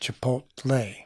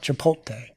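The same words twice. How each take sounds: First: The T sound comes before the L sound. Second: The L sound comes before the T sound. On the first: The speaker calls it right. "What's the correct way to say it?" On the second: The speaker calls it wrong. "How I would normally,how I would normally say it"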